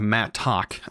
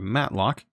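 First: The word is said without an L sound. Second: The word is said with an L sound. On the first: The speaker calls it right. "It's a mattock" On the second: The speaker calls it wrong. "I don't know why I call it matlock"

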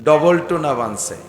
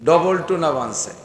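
No difference in how they are said.

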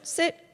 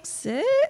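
First: The word sounds calm and confident. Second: The word sounds pleading and uncertain. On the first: The speaker expects the dog to obey. The speaker calls it right. "Say it with confidence" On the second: The speaker is begging the dog to obey. The speaker calls it wrong. "So if you're asking"

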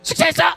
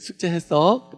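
First: It is said in a harsh, scolding voice. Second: It is said in a gentle, friendly asking voice. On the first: The parent is scolding the child. The speaker calls it wrong. "이게 아니라" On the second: The parent kindly offers to help. The speaker calls it right. "이렇게"

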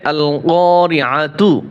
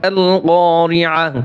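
First: The word ends with a full 'tu' syllable. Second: The word stops on 'a' without 'tu'. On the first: The reader continues on to the next word. "যখন আমরা মিলিয়ে যাব তখন হবে" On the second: The reader pauses after this word. "যখন ওয়াকফ করব"

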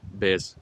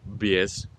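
First: The vowel is a plain e, without a glide. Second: The vowel sounds like ye, with a y-glide. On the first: "la E rimane E" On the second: "Però la E si pronuncia IE"

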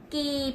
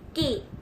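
First: The vowel is held longer. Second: The vowel is held briefly.

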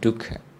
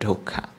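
First: The word is said with a Pali pronunciation. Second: The word is said with a Burmese pronunciation. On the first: "In Pali it's called dukkha" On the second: "In Burmese pronunciation it's called dukkha"

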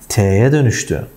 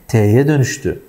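The two takes are said the same way.

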